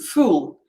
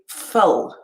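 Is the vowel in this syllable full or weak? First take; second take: full; weak. First: The vowel is a full, strong oo sound. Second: The vowel is reduced to a weak schwa. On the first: "use a strong vowel sound like oo" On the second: "because it's a suffix, we're saying full"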